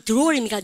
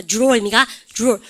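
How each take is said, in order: First: "드로어" with a plain separate d and r; unblended DR. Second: "드로어" starting with a j sound, like 주로어; blended DR. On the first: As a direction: say "드로어" as deu-ro-eo. ("드로어"를 글자대로 드-로) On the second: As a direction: turn the DR of "드로어" into j-r. ("드로어"를 주로어처럼) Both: Shown as a demonstration. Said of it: "이것만 여러분들 하는 게 아니죠".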